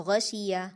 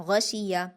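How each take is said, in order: No difference in how they are said.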